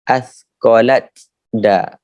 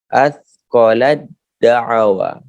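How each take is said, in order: First: The t is pronounced separately before the d. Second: The t is merged into the following d. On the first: The speaker calls it wrong. "Bukan baca athqalat da" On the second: The speaker calls it right. "Huruf tak dimasukkan ke dalam huruf dal"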